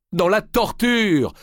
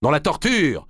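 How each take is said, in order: First: «Dans la torture!» lancé très haut, fort et lent; réplique puissante. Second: «Dans la torture!» repris en écho, un peu moins haut; écho sous les voûtes. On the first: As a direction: marteler «torture» avec force. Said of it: "répliqua Molay". (Molay réplique à Marigny, voix tonnante et lente) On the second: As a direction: comme une voix lointaine au fond de la nef. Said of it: "relança la voix". (l'écho de la cathédrale répète, voix plus retenue) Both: A narrator's reading.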